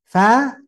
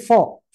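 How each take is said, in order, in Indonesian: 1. Suku katanya ringan, dengan vokal a yang terbuka. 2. Suku katanya berat, dengan vokal seperti o yang dibulatkan. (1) "fa ya fa saja fa" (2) "jangan sampai fa jadi fo"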